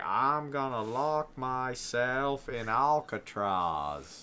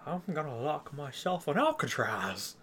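First: Slow, drawled Piper-Jimmy Stewart mix; Piper impression. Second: Slow, lightly voiced Piper imitation; a hint of Roddy Piper; Piper impression. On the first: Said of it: "Your Piper impersonation is a mix between Piper and Jimmy Stewart". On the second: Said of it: "Piper impersonation".

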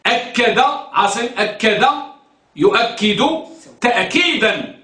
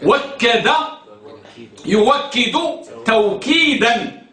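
First: أكد يؤكد تأكيدا with glottal stops, spaced out; with hamza. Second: وكد يوكد توكيدا with w in place of hamza; with waw. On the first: Teacher drills student Asim, deliberate hamza pronunciation. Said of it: "بالهمز". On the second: Teacher shows the waw conjugation, deliberate pronunciation. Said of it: "وفي الواو لا تقول". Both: Shown as a demonstration.

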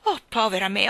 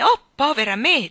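First: Mild moaning wail of "Oh, povera me"; groaning lament. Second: Higher, louder wail on "oh, povera me"; louder wailing lament. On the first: Queen lamenting the king's folly, mild moan. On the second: Queen despairing over the king, louder wail. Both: Acted. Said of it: "gemette la regina".

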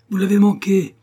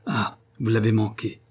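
First: «Vous l'avez manqué!» crié bien plus haut et plus fort, chute sur la fin; cri déçu. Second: Said in the usual way. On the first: A narrator's reading. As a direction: criez le reproche à travers la cour. Poursuite de la poule, déception. (Nell crie sa déception à Master Cronin, beaucoup plus haut et plus fort)

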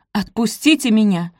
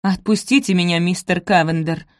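First: Stern demand. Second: Stern. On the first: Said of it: "повторила Софи". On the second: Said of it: "самым суровым тоном". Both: A narrator's reading.

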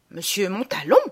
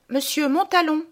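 First: Questioning repeat in an ordinary register; mother's questioning echo. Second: High-pitched formal announcement, falling at the end; maid announcing. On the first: Mother reacts to the maid's announcement, questioning. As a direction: echo the name as a question, rising at the end. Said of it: "fait ma mère". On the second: Maid announces a visitor to the household, high formal call. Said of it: "voilà que la bonne annonce". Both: Acted.

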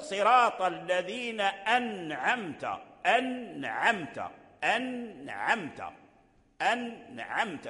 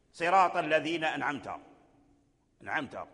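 First: Slow أنعمت with a clear held nun; correct nun. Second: أنعمت with the nun swallowed, no clear n; the wrong way, أنعمت without its nun; nun dropped. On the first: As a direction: model أنعمت slowly, nun sounded. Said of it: "لا بد أن يتعلم النطق". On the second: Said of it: "ما كاين لا هناك نون". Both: Shown as a demonstration.

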